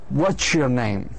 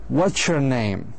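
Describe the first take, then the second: Both takes have the same delivery.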